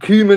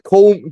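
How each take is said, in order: First: The name is said without an L sound. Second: The name is said with an L sound. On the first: The speaker calls it right. "Cumin, innit?" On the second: The speaker calls it wrong. "it's spelled like Coleman"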